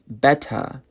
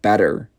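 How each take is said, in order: First: The final R sound is dropped. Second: The final R sound is pronounced. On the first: "in England, they don't even pronounce the R, so it would be better" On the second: "instead of better"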